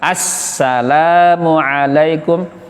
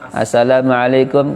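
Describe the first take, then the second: First: The s sound is held long and firmly pressed. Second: The s sound is short and not pressed. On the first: The speaker calls it right. "Kalau salam tegas" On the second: The speaker calls it wrong. "Jangan assalamualaikum, keliru"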